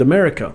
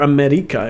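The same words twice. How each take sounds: First: The name is pronounced the English way. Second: The name is pronounced the Spanish way.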